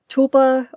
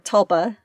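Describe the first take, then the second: First: The first vowel is long, like in tulip. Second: The first vowel is short, like in Tulsa. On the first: "like tulip"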